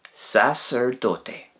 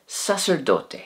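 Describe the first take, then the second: First: Sacerdote drawn out slowly, every syllable clear; slow model word. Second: Said in the usual way. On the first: Shown as a demonstration. Teacher slowly repeating sacerdote for learners. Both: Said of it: "and in Spanish".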